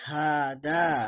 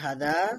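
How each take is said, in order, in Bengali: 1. প্রথম স্বরটি দীর্ঘ করা হয়। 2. প্রথম স্বরটি হ্রস্ব। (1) "হায়ের মধ্যে এক আলিফ টান দিতে হবে" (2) "এটা লেখা আছে হাদা"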